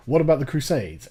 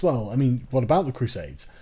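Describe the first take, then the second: First: Lightly mocking the critic's question; imitating a critic. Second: Lower-pitched, lightly mocking critic's voice; mock smug objection. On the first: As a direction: toss off the familiar objection with mild mockery. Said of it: "the one thing I do hear". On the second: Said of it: "who thinks".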